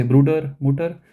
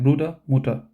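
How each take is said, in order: First: Bruder and Mutter with a clearly rolled final R; R emphasized. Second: Bruder and Mutter ending in a soft uh sound, no R; soft final R. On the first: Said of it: "I will tell you to emphasize". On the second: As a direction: let the R at the end of Bruder and Mutter fade away. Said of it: "don't emphasize the R part". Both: Shown as a demonstration.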